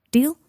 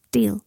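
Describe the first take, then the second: First: DEAL rising as a question. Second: DEAL falling as a firm answer; agreeing. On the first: Harry sealing a bargain with a boy, DEAL rising questioningly. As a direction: offer "Deal?" with an upward lift. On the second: Boy accepting Harry's bargain, DEAL falling in agreement. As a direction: settle "Deal" with a downward tune. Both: A narrator's reading.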